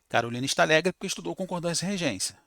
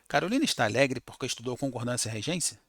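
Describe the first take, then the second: First: It is said with falling statement intonation. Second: It is said with questioning intonation. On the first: It states the reason for the joy. "Antes era" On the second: It asks about the reason for the joy. "com um ponto de interrogação. Vai mudar até a entonação"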